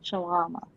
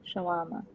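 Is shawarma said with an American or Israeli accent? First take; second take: Israeli; American. First: The word is said with an Israeli accent. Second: The word is said with an American accent.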